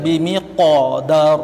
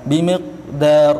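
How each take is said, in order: First: The q sound has a strong, heavy bounce. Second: The q sound has no bounce at all. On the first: "itu terlalu kuat. Itu qalqalah kubra" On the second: "itu salah. Qalqalah tidak ada"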